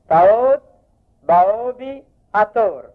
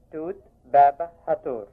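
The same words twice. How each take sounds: First: Teacher's model: تاوت، باوبي، أتور said clearly and raised; old Bohairic names. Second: توت، بابا، هاتور said quickly and dropping, as in everyday Egyptian speech; the everyday form set against the Coptic one; colloquial names. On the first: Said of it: "انكسوف مرة تانية". (اللفظ البحيري: تاوت، باوبي، أتور بصوت أعلى) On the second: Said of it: "باللهجة العامية". (النطق العامي: توت، بابا، هاتور بنبرة هابطة) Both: Shown as a demonstration.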